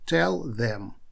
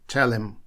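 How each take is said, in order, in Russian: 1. Звук 'th' в слове 'them' чётко произносится. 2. Звук 'th' пропускают, как в 'tell 'em'.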